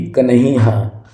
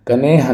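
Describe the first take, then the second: First: कन्हैया with "hai" after the n; careful aspirated middle in कन्हैया; correct pronunciation shown. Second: कनेहा as "ka-ne-haa"; long "ne" in कनेहा; wrong pronunciation shown. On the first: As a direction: say कन्हैया as "kan-hai-yaa". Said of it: "सही". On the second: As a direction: say कनेहा without any y sound. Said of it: "कनेहा नहीं भी". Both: Shown as a demonstration.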